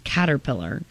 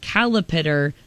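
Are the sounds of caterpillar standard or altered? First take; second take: standard; altered. First: The word is said with its usual standard sounds. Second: The word is said with altered, nonstandard sounds. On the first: The speaker calls it right. "how you pronounce caterpillar" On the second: The speaker calls it wrong. "caterpillar is not how you pronounce"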